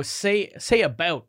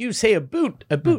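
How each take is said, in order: First: "about" with an open ow vowel; "about" rhyming with "out"; usual "about". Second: "a boot" with a long oo vowel, mocking Canadian "about"; mock-Canadian "a boot", pitched up. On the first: Retold or imitated. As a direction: ask for "about", said the standard way. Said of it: "whenever Americans would be like". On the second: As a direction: turn "about" into a teasing "a boot". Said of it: "weird about the Canadian accent".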